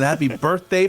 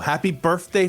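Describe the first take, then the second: First: The th sound in birthday is kept. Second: The th sound in birthday is dropped. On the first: "for the rest of America" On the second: "for Philadelphians"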